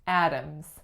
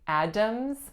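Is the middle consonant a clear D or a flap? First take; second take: flap; clear D. First: The middle consonant is a quick flap. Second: The middle consonant is a full D sound. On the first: The speaker calls it right. "It's actually a flap. ... I say Adams" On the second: The speaker calls it wrong. "So I don't say Adams"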